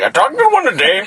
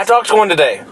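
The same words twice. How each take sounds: First: It is said in an imitated Indian accent. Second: It is said in his normal own voice.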